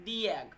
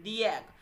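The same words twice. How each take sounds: The two takes are said the same way.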